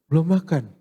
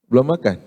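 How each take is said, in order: First: It is asked in a caring, concerned tone. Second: It is asked in a mocking, taunting tone. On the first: The asker cares about the listener. "Pertanyaan peduli kan gini" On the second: The asker is gloating over the listener. "pertanyaannya ngenyek"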